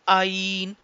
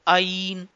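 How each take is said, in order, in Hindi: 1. शुरुआती आवाज़ अचानक एक झटके से शुरू होती है। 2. शुरुआती आवाज़ अचानक एक झटके से शुरू होती है।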